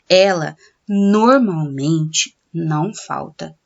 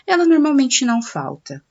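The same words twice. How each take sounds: First: Pauses set off 'normalmente' before and after. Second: The sentence flows on with no pauses. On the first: The adverb is emphasized. "se por um acaso eu desejar dar ênfase ao termo normalmente, aí eu tenho que usar a vírgula para isolar" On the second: The adverb is not emphasized. "ele foi dito, ó, no fluxo da sentença"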